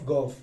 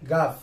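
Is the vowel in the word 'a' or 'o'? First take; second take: o; a. First: The vowel is a rounded 'o' sound. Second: The vowel is an open 'a' sound. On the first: This is the modern way of saying the letter name. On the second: This is the older way of saying the letter name.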